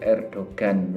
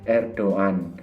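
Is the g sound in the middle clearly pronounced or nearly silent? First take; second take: clearly pronounced; nearly silent. First: The g in the middle is clearly pronounced. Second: The g in the middle is barely heard. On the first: The speaker calls it wrong. "kalau di Indonesia kan keliru biasanya orang-orang ... mereka nyebutnya gitu" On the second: The speaker calls it right. "Tapi yang benar membacanya itu adalah Erdogan ... tidak terlalu kelihatan"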